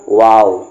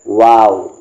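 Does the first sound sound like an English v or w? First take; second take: w; w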